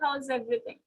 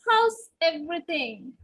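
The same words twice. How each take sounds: First: It is said flatly, with no energy. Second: It is said with warmth and energy.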